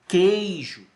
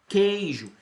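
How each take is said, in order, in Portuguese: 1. O k vai direto para a vogal. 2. O k vai direto para a vogal.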